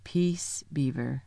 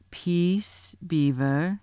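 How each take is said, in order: First: Soft, low warning growl; hushed lion's warning. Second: Said in the usual way. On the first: A narrator's reading. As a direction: quietly growl a rebuke, dropping down. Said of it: "with a very low growl".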